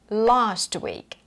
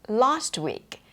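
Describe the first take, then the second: No difference in how they are said.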